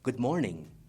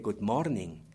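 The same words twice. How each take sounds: First: It is said with English stress and rhythm. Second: It is read out evenly, like Spanish. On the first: The speaker calls it right. "We'd say good morning" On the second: The speaker calls it wrong. "in Spanish is pronounced or read morning, ... But we don't say good morning"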